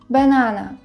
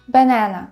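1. Це вимовляється з британською англійською вимовою. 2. Це вимовляється з американською англійською вимовою. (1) "Це варіант вимови в британській англійській" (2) "а в американській англійській ви почуєте banana"

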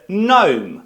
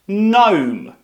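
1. Слово одразу починається зі звуку n. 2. Слово одразу починається зі звуку n.

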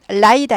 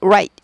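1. r 소리는 평평한 한국식이고, 입술을 둥글리지 않아요. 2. r은 입술을 빠르게 둥글리면서 시작해요. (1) "write 아니고" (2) "R 발음 중요하죠"

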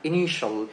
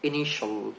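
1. শেষ অংশটি ছোট 'shal' এর মতো বলা হয়। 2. শেষ অংশটি ছোট 'shal' এর মতো বলা হয়।

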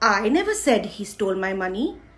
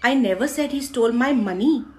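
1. Stress "I" शब्द पर पड़ता है। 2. स्ट्रेस "money" शब्द पर पड़ता है। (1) "मैंने नहीं बोला, किसी और ने बोला होगा" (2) "पैसे नहीं"

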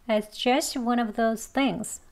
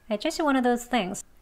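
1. 이 문장은 빠르게 말하고, 소리를 가볍게 냅니다. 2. 이 문장은 아주 빠르게 말하고, v 소리를 뺍니다. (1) "이번엔 빨리 합니다" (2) "가장 빨리 발음할 땐"

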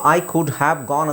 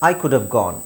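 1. 'have' ಪದವನ್ನು ಪೂರ್ತಿಯಾಗಿ ಮತ್ತು ಪ್ರತ್ಯೇಕವಾಗಿ ಉಚ್ಚರಿಸಲಾಗುತ್ತದೆ. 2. 'have' ಪದವನ್ನು ಸಂಕ್ಷಿಪ್ತಗೊಳಿಸಿ ವೇಗವಾಗಿ ಇತರ ಪದಗಳೊಂದಿಗೆ ಸೇರಿಸಿ ಉಚ್ಚರಿಸಲಾಗುತ್ತದೆ. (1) "ಆಡು ಭಾಷೆಯಲ್ಲಿ ನೀವು ಐ ಕುಡ್ ಹ್ಯಾವ್ ಗಾನ್ ಅಂತ ಏನೂ ಹೇಳೋದಿಲ್ಲ" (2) "ಫಾಸ್ಟಾಗಿ ಹೇಳಬೇಕಾದ್ರೆ"

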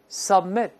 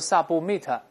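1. b 在 m 前面保持不除阻。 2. b 在 m 前面完全除阻。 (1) "注意这个but 是失去爆破" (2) "不要读submit，不是这样的"

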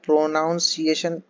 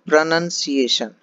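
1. दूसरा अक्षर 'nown' जैसा सुनाई देता है। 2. दूसरा अक्षर 'nun' जैसा सुनाई देता है। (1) "हम इसको प्रोनाउंसिएशन बोलते हैं" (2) "लेकिन ये होता है प्रनंसिएशन"

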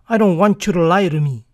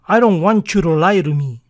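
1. 'Want you' se une y 'to' suena como 'ru'. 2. 'Want you' se une y 'to' suena como 'ru'.

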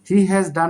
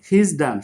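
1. 'he has' কথাটি পুরোপুরি উচ্চারিত হয়। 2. 'he has' সংক্ষেপিত হয়ে 'he's' হয়ে যায়। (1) "হি হ্যাজ ডান না বলে" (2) "আমরা বলি হিজ ডান"

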